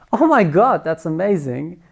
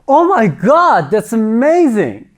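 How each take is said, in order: First: The voice sounds happy. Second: The voice sounds excited. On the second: "and excited"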